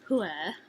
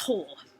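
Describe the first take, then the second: First: The name is said with two syllables, like 'hue-er'. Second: The name is said as one syllable, like 'hore'. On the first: The speaker calls it wrong. "we pronounced it as Huer" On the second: The speaker calls it right.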